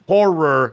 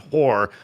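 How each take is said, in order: First: The word is said with two clear syllables. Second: The word is blurred into nearly one syllable. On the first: The speaker calls it right. "Horror, not horror" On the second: The speaker calls it wrong. "the way I say horror, it sounds like I'm just saying horror"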